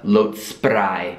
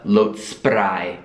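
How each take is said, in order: First: Spray is said with an Italian-style pronunciation. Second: Spray is said with an Italian-style pronunciation.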